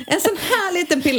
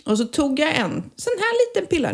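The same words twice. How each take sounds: First: "En sån här liten pilla" said much higher, playful and tiny; higher, cutesy "liten pilla". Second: Said in the usual way. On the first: Shown as a demonstration. Showing the tiny pill to her co-host, higher and playful. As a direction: pitch it up, cute little pill. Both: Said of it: "Nu ser inte ni, men Mariette ser".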